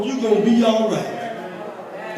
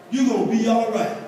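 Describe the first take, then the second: First: Slow reassurance. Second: Said in the usual way. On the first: Acted. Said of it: "slow reassurance". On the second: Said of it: "repeated plainly".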